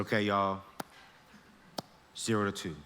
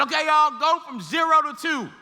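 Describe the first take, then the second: First: Softer, lower calm call; quiet instruction. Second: Teacher calling out louder and higher; loud instruction. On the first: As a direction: murmur the step to the class. Teacher repeats instruction softly. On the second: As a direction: call the step out across the lab. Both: Retold or imitated.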